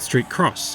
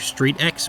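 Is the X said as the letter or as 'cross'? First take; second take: cross; letter. First: The X is said as the word cross. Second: The X is said as the letter name. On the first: "or is it Street Cross" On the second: "pronouncing it as an X"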